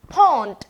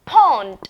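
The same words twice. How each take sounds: First: "Pond" called out loud again; repeat call-out. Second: "Pond" called out with a strong puff on P; loud model word. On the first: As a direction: call "Pond" once more for the echo. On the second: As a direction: bark "Pond" for the class to copy. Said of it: "Say it, let me hear". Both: Shown as a demonstration.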